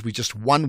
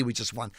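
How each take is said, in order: First: Said in the usual way. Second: A quieter, dry repeat; deadpan throwaway echo; dry aside. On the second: Shown as a demonstration. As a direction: drop the voice to say it again. Repeats the point dryly.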